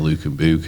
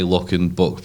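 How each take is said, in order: First: The vowels are said the local way. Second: The vowels are said the standard way. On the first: The speaker calls it wrong. "They say" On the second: The speaker calls it right.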